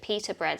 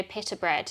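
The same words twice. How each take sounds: First: "pita" said with a long ee, like Peter; dad's pronunciation. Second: Said in the usual way. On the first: Retold or imitated. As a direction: say "pita" as PEE-ta. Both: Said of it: "he pronounced it pita bread".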